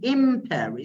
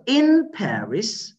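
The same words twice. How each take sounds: First: The first word ends with an m sound. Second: The first word ends with an n sound. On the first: "did turn to be ma" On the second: "this word ends in na"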